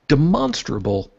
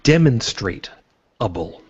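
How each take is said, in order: First: It is said with its usual pronunciation. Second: It is said like 'demonstrate' plus 'able'.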